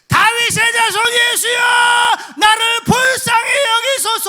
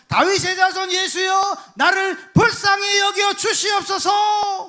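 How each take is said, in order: First: It is shouted louder at a higher pitch. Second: It is cried out at a lower pitch.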